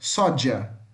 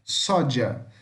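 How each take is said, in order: First: The middle consonant sounds like 'dj'. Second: The middle consonant sounds like 'dj'.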